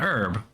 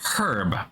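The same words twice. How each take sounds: First: The word starts with a vowel, H silent. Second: The word starts with a clearly pronounced H. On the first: "to an American an herb" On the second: "to the British it is a herb with a hard H"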